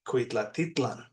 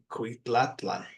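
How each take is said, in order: First: It has a linking 't' before the ending. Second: It has no linking 't' before the ending. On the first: The speaker calls it right. "the T makes it roll off the tongue a little better" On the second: The speaker calls it wrong. "without the T, it would be Cuitlatlan"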